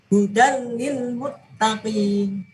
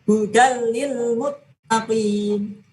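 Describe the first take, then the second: No difference in how they are said.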